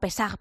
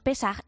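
First: The name is said the Spanish way. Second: The name is said the Hebrew way. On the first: This is how locals often say it. The speaker calls it wrong. "a veces no pronunciamos nosotros como Pesach" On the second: This is the original form of the name. The speaker calls it right. "el término correcto es Pesach"

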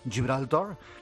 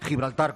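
First: Gibraltar is pronounced the English way. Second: Gibraltar is pronounced with a broad Spanish accent. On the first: The speaker mocks the word as said in England. The speaker calls it wrong. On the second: The speaker asserts the word as it is said in Spain. The speaker calls it right.

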